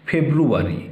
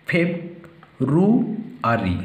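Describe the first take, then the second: First: Said in the usual way. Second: "ফেব, রু, আরি" in three parts with long pauses; syllable by syllable. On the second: Shown as a demonstration. Teacher dividing February for pupils, "ফেব, রু, আরি" syllable by syllable. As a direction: separate each piece of "ফেব, রু, আরি" distinctly. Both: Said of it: "syllable তিনটে ভাগ করে দেব".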